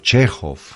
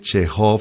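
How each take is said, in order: First: The stress is on the first syllable. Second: The stress is on the last syllable. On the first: The speaker calls it right. "las palabras de dos sílabas en ruso llevan la tilde en la primera sílaba" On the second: The speaker calls it wrong. "uno no dice Chekhov"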